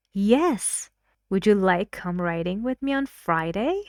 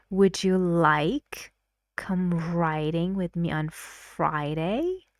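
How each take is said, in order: First: Bright louder "Yes", quick invitation rising at the end; stress on yes and Friday. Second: "Friday" carries the rising stress. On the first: Speaker B accepts and invites, stressing Friday. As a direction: accept eagerly, then invite. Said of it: "So the answer is yes". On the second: Teacher repeats the invitation, stressing Friday. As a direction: lift and stretch "Friday" at the end. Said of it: "the speaker gives more stress to". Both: Shown as a demonstration.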